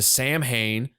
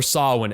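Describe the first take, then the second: First: The name is said the common, spelled-out way. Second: The name is said the original, actual way. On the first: The speaker calls it wrong. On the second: The speaker calls it right.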